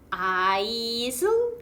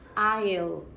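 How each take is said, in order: First: The word is said with an s sound. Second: The word is said without an s sound. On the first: The speaker calls it wrong. "그런데 S 발음이 안 납니다" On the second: The speaker calls it right. "그냥 이렇게 발음해요"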